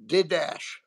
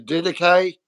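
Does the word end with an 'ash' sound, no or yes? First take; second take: yes; no. First: The word ends in an 'ash' sound. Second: The word does not end in an 'ash' sound. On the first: The speaker calls it wrong. "I used to pronounce it Didash. Like Jordache jeans" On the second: The speaker calls it right. "Didache, that's correct"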